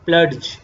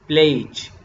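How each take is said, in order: First: A separate d sound is heard. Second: No separate d sound is heard. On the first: The speaker calls it wrong. "नॉट" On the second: The speaker calls it right. "आप डी को नहीं पढ़ेंगे"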